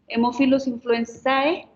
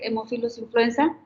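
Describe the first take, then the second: First: The final vowel letter of the last word is pronounced. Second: The final vowel letter of the last word is dropped. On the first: The speaker calls it wrong. "cuando tienen dos eh, letras al final" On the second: The speaker calls it right. "se quita la letra final"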